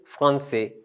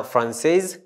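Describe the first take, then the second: First: FRANCAIS said as fran-say; masculine pronunciation. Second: FRANCAIS said as fran-sez, z sounded; feminine pronunciation. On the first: Teacher contrasting gender forms, open masculine ending. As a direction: say Francais with the final s silent. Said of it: "we're able to pronounce Francais". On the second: Teacher contrasting gender forms, feminine z ending. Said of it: "we pronounce the S". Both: Shown as a demonstration.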